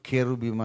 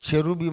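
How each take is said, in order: First: The word begins with a k sound. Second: The word begins with a ch sound. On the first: The speaker calls it right. "నేనైతే పండు కట్టుకొని కెరుబిం అని అంటాను" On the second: The speaker calls it wrong. "చెరుబిం అని కొందరు అంటారు"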